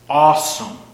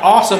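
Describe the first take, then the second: First: It is said in a hushed, awestruck way. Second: It is said in a cheerful, excited way. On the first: Something is overwhelming and fearsome. "I mean like, oh my goodness" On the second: Something is cool and fun. "I don't mean like awesome, woohoo!"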